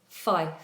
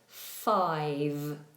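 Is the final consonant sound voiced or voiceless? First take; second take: voiceless; voiced. First: The final consonant is voiceless, like an F. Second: The final consonant is voiced, with throat vibration. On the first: The speaker calls it wrong. "they make a second voiceless sound" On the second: The speaker calls it right. "it should be vibrating on that second sound"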